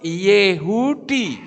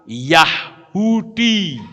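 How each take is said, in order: First: The first vowel sounds like 'eh'. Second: The first vowel sounds like 'ah'. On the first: The speaker calls it right. "Itu yang betul Yehudi" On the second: The speaker calls it wrong. "Seperti orang bilang Yahudi"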